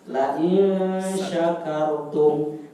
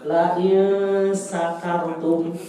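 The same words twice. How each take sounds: First: Slow recitation of "La in syakartum" with a clear sh in "syakartum"; correct shin sound. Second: Slow recitation of "La in syakartum" with a plain s, so it sounds like "sakartum"; wrong sin sound. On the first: Teacher shows students the correct Quran reading, slow and clear sh. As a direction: drag out "La in syakartum", saying "syakartum" with a crisp sh. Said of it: "yang betul yang ini ya".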